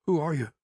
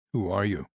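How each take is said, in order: First: Higher woman's voice, guarded. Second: Said in the usual way. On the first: Acted. Grieving nurse asks the stranger who he is, higher voice. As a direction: ask it as the wary old nurse.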